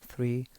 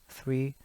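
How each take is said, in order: The two takes are said the same way.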